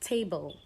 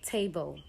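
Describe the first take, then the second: No difference in how they are said.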